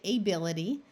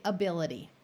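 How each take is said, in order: First: Ability opening on a full long A, like "ay"; first vowel of ability kept as a clear AY. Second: Ability opening on a weak "uh"; schwa in ability. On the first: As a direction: say ability as AY-bility. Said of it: "So you could say ability". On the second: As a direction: say ability as uh-BIL-ity. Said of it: "people will actually say ability". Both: Shown as a demonstration.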